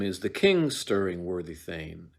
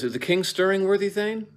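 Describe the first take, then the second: First: Said in the usual way. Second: Much higher, louder Is the king stirring, worthy Thane; high hammed-up question; played for a laugh. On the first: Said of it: "Macduff asks him". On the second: Shown as a demonstration. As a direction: pitch the question up high for comic effect. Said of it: "if Macduff says".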